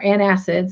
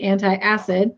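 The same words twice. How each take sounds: First: "antacid" said as "ant-ASS-id"; "antacid" as an-ASS-id, without the "tie"; corrected pronunciation. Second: "antacid" said as "anti-acid"; "antacid" in four syllables, an-tie-ASS-id; mispronounced antacid. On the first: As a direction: say "antacid" in three syllables, no eye sound. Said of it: "is how it's really pronounced". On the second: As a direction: say "antacid" with an extra eye sound, an-tie-acid. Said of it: "sorry, is how it's really pronounced". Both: Real, not acted.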